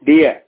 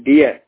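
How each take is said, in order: No difference in how they are said.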